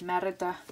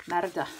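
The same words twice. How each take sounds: First: Said in the usual way. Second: Merida in a light, self-mocking Scottish accent; a half-hearted Scottish Merida; attempted Scottish accent. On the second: Shown as a demonstration. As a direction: have a go at saying Merida like a Scot, knowing you're no good at accents. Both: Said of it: "I always try and do a Scottish accent".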